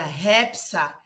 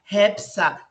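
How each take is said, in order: First: The syllables run together as one word. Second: The same.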